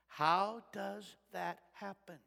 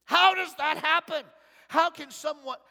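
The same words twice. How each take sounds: First: Said in the usual way. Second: Higher, louder rhetorical how; louder question. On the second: Real, not acted. Preacher repeating his question louder to the congregation. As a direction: hit HOW and lift the whole question.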